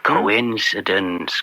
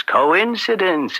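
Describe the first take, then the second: First: Slow and low, knowingly dry; a drawn-out knowing murmur; sly understatement. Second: Higher and slow, feigning innocence; a sing-song shrug of a word; mock-innocent lilt. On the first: Acted. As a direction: let the word hang slowly. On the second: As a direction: lift it up as if it's all chance. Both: Slyly brushing off the bribe link.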